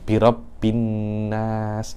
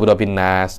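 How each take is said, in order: First: The n sound is held with nasal hum. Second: The n sound is short without nasal hum. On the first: The speaker calls it right. "kena ada gunnahnya" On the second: The speaker calls it wrong. "Loh, tak boleh"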